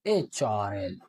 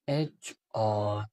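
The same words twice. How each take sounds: First: Said in the usual way. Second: एचआरएल drawn out slowly, letter by letter; slow spelled-out HRL. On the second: Shown as a demonstration. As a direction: stretch एचआरएल slowly like a teacher dictating. (एचआरएल को धीरे-धीरे, अक्षर-अक्षर खींचकर बोलें) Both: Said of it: "इस तरह से mark करते".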